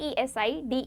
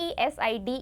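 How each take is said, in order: The two takes are said the same way.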